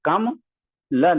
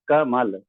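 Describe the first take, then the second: First: The syllables are grouped as kam plus la. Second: The syllables are grouped as ka plus mal. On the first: The speaker calls it wrong. "कभी भी हम कम ल नहीं बोलते हैं" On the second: The speaker calls it right. "कमल ऐसे बोलते हैं"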